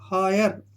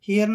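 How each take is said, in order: First: The first vowel sounds like 'eye'. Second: The first vowel sounds like 'ee'. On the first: The speaker calls it right. "इसको पढ़ेंगे हायर" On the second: The speaker calls it wrong. "हियर नहीं पढ़ना है बिल्कुल भी"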